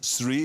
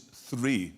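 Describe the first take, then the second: First: The word begins with an s sound. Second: The word begins with a th sound. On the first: The speaker calls it wrong. "It's not three" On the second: The speaker calls it right. "it is three with T H"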